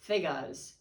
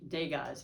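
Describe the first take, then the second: First: The word begins with a th sound. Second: The word begins with a d sound. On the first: The speaker calls it right. "I guess you don't pronounce the D" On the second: The speaker calls it wrong. "it's with a D"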